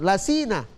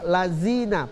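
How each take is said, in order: First: The middle consonant is a hissing s sound. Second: The middle consonant is a buzzing z sound. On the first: "mereka membaca dengan sin" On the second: "baca lazina pakai zai"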